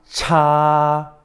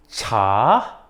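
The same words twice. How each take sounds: First: It is said with the first tone. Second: It is said with the second tone.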